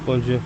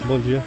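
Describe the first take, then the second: First: It sounds gloomy and flat. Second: The same.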